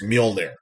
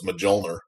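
First: The first letter sounds like a Y. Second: The first letter sounds like a J. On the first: The speaker calls it right. "Nordic J's are like Y's, I guess. So it's Mjolnir" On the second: The speaker calls it wrong. "I just pronounced it like it's spelled"

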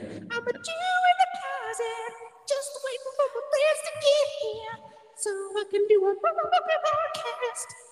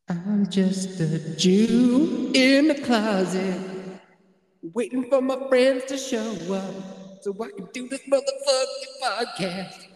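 First: It is said in a high falsetto voice. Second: It is said in a normal voice.

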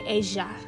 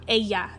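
First: The double L sounds like 'sh', Argentine style. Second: The double L sounds like 'y', common style.

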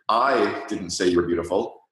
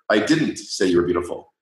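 First: The stress falls on "I". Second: The stress falls on "didn't". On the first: "put the emphasis on the first word" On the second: "if you put the emphasis on the second word"

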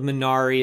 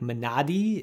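First: The middle consonant sounds like an English r. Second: The middle consonant sounds close to a d. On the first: The speaker calls it wrong. "my American tongue is just not going to make that work" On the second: The speaker calls it right. "the proper pronunciation of Minari is, I think, Minadi"

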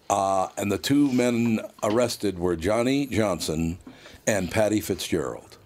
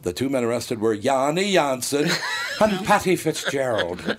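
First: The names are said in a plain American accent. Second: The names are said with an exaggerated foreign accent. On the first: "I can read the line" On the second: "if I did the same thing that Geraldo did, I'd go"

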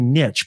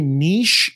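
First: The vowel is short, like in itch. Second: The vowel is long, like in leash. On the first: "Put N-I-C-T-H" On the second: "as in N-E-E-E-S-H"

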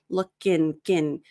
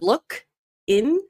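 First: The K runs straight into the next vowel. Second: The two words are said separately. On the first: The speaker calls it right. "the K actually sounds more connected to the next word" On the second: The speaker calls it wrong. "instead of look in"

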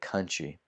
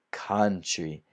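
First: The first vowel is a relaxed schwa sound. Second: The first vowel is an open 'a' sound. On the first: The speaker calls it right. "si dice country" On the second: The speaker calls it wrong. "Non si dice country"

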